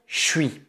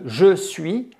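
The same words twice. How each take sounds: First: The pronoun is reduced to a 'ch' sound. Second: The pronoun is said fully with its vowel. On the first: "va se prononcer ch" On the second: "à la place de"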